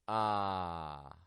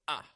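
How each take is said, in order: First: The vowel flows out smoothly with air. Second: The vowel is burst out abruptly. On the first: The speaker calls it right. "but we let them flow" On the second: The speaker calls it wrong. "we don't burst our vowel sounds out"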